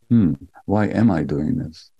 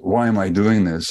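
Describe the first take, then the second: First: It sounds gentle and compassionate. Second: It sounds harsh and self-judging.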